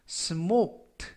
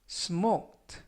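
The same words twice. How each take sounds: First: The k sound is barely heard. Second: The k sound is clearly pronounced. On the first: The speaker calls it right. "크 발음이 거의 나지 않고요" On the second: The speaker calls it wrong. "smoked가 아니라"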